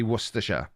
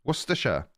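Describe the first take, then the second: First: "Worcestershire" in the Welsh way, said plainly in his own voice. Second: "Worcestershire" said as WUSS-tuh-sher, short and clipped to three syllables; proper Worcestershire. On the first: Telling viewers how the Welsh say "Worcestershire", plain own voice. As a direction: give "Worcestershire" the Welsh way he says it. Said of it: "But we say". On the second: Demonstrating for chat how to say "Worcestershire" as wuss-tuh-sher. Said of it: "proper pronunciation of Worcestershire". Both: Shown as a demonstration.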